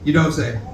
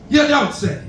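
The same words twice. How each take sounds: First: Fast, run together like Spanish; Spanish-sounding. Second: High, loose imitation of Spanish; mock Spanish accent. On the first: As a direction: blur it into one Spanish word. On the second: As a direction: run it together like Spanish, pitched up. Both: Shown as a demonstration. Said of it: "sounds like Spanish".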